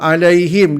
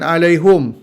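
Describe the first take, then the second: First: The vowel after the h is i. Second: The vowel after the h is u. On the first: This is the common reading of the word. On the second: This is the reading of one particular reciter.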